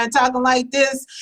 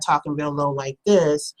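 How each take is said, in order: First: Pitched up, held high; going up high. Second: Low, subdued demonstration voice; talking real low. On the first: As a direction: lift the voice up in the air. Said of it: "if you start going up in the air". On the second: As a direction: drop into a low register. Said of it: "start talking real low like this". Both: Shown as a demonstration.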